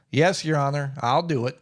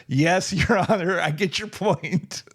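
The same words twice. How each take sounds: First: Said in the usual way. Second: Slow, knowing yes-sir; mock-dutiful, drawn out; wry mock obedience. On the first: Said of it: "I was like". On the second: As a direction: humor the judge with a dry, slow reply. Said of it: "It's like".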